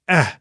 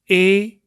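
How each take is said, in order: First: The vowel sounds like the vowel in 'met'. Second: The vowel sounds like the alphabet letter name. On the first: It is the sound the letter often has inside a word. "as in met, eh" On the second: It names the letter of the alphabet. "if you pronounce it as a letter in the alphabet, you say E"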